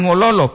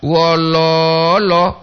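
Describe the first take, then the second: First: "wololo" with all syllables short, no stretched O; "lo" pendek. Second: "Wololo" with a long, sustained middle lo; "lo" panjang. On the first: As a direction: say "wololo" quickly, short middle lo. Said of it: "Kalau wololo seperti ini sedih". ("wololo" pendek tanpa tarikan) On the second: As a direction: stretch "Wololo" on its second syllable. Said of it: "Bukan wololo". ("Wololo" dengan "lo" tengah dipanjangkan) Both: Shown as a demonstration.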